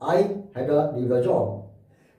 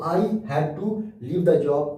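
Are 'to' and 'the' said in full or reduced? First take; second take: reduced; full. First: The words 'to' and 'the' are reduced to weak sounds. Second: The words 'to' and 'the' are said in full.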